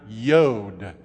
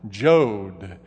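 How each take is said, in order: First: The word begins with a Y sound. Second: The word begins with a J sound.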